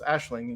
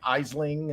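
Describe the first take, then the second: First: It begins with an 'ash' sound, ending 'ling'. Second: It begins with an 'eye' sound, ending 'ling'. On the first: The speaker calls it right. "that's Ashling" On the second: The speaker calls it wrong. "people are like"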